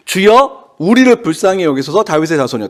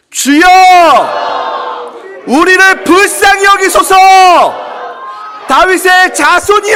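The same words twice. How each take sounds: First: Said in the usual way. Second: Crying out louder. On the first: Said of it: "더욱 소리 질러서". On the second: Shown as a demonstration. Preacher leads congregation as the blind man, crying out loudly. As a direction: cry out at the top of your voice. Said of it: "더욱 소리를 질러보도록 하겠습니다".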